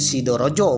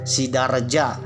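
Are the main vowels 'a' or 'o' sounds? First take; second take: o; a. First: The vowels are said as rounded 'o' sounds. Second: The vowels are said as open 'a' sounds. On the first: This is how eastern Javanese would say it. "Seandainya ini berada di Solo" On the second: This is the local Ngapak Javanese form. "lapalnya A di sini, A aja ya"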